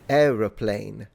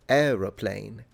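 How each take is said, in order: First: The word starts with 'aero', three syllables. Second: The same.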